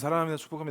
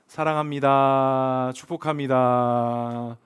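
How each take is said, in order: First: It is said in a careless, offhand way. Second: It is said warmly, with heartfelt sincerity.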